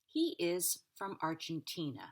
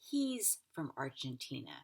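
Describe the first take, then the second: First: He and is are said as two words. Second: He and is are joined into he's.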